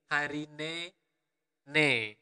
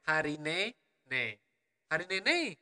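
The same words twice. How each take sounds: First: "Hari ne" slow, then a short pause before "ne"; pause before last ne. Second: Balinese regional accent. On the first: Teacher showing learners the pause in "Hari ne ne". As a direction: say "Hari ne", hold a beat, then "ne". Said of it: "so you have a little pause there". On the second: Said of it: "that would be the accent of my region". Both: Shown as a demonstration.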